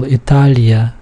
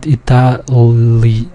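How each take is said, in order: First: Italia with a soft, palatal L; softer L. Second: Itali slow, broken up, with a hard L; wrong hard L. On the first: Teacher explaining the uppercase L, softer L. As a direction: say Italia with the L melting into the following vowel. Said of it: "so it's a softer L". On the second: Teacher showing what not to say, wrong hard L. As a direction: drag out Itali with a separate hard L. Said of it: "not Itali". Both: Shown as a demonstration.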